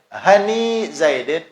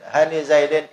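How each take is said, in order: First: The vowel after 'han' is long. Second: The vowel after 'han' is short. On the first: The word is inflected with letters. "itu itmam" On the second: The word is inflected with vowel marks only. "itu naqas"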